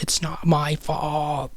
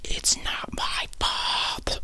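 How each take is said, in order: First: Higher, drawn-out mock yell; held-back yell. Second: Slow, hushed mock yell, softer; held-back yell. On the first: Boy protesting to his mom, higher held-back yell. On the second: Boy protesting to his mom, yell held back. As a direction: stretch out a retold yell without raising the voice. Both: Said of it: "I'm not gonna yell it".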